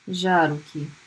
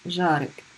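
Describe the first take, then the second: First: The word has three syllables with a final vowel. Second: The word has two syllables without a final vowel.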